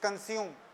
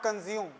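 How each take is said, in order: First: The sound after 'con' is an s sound. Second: The sound after 'con' is a j sound. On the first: The speaker calls it right. "it is consume" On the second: The speaker calls it wrong. "that is not consume"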